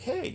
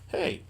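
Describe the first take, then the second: First: It sounds bright and smiling. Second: It sounds flat and ominous.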